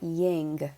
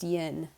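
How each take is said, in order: First: The word ends with an ng sound. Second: The word ends with a plain n sound. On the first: The speaker calls it wrong. "it's also not ying" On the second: The speaker calls it right. "it's just yin, Y I N"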